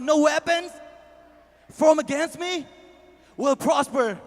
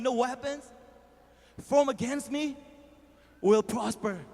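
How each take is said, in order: First: It is said loudly. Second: It is said at normal volume.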